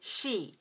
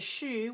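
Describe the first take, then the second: First: The vowel is a clear 'ee' sound. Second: The vowel is a rounded 'u' sound. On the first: The speaker calls it right. "we want to say she" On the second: The speaker calls it wrong. "we don't want to say shu"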